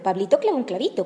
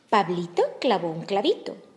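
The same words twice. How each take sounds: First: The phrase is said at a very fast pace. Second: The phrase is said at a normal pace.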